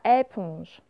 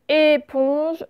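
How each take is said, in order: First: "éponge" starting on open è; mispronounced with è. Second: Said in the usual way. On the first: Shown as a demonstration. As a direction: say "éponge" wrongly as "èponge", slowly. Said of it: "ce n'est pas". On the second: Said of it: "c'est aussi le son et".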